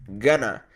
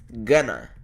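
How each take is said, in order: No difference in how they are said.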